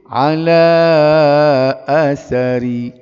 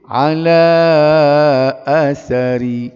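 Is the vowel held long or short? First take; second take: long; long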